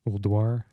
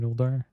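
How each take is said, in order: First: The middle 'u' sound is clearly said. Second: The middle 'u' sound is left out. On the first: The speaker calls it right. "I'm supposed to call it Ulduar. Got to pronounce the U" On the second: The speaker calls it wrong. "I do call it Uldar. It's just an easier way to pronounce"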